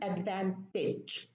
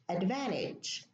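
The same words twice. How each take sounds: First: The T is pronounced, British style. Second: The T is dropped, American style.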